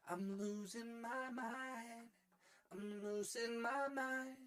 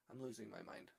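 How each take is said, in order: First: High, slow sung refrain; singing. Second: Said in the usual way. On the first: Pretend. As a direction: sing it out high with long held notes. Turns the phrase into song.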